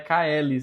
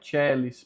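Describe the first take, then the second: First: The word begins with a hard k sound. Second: The word begins with a ch sound. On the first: The speaker calls it wrong. "não é Caelis" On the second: The speaker calls it right. "a pronúncia é Chelis"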